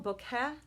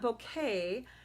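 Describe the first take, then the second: First: The second syllable sounds like 'keh'. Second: The second syllable sounds like 'kay'. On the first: The speaker calls it right. "it's more like kettle" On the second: The speaker calls it wrong. "It it's not bouquet"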